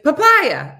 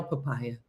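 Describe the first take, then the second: First: Sudden loud, high yell. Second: Said in the usual way. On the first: Shown as a demonstration. Showing listeners what to do around Chris, yell. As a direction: yell the word out as a demonstration. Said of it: "just yell "papaya". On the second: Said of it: "just yell".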